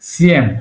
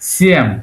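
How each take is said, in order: First: The word is said with a softened sound. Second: The same.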